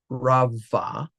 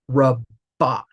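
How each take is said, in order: First: The middle consonant is a soft v sound. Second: The middle consonant is a hard b sound. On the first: The speaker calls it wrong. "not rava" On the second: The speaker calls it right. "it most likely will be hard as well, which means rabba"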